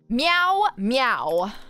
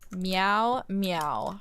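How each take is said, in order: First: The meow sounds very angry. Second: The meow sounds only mildly angry.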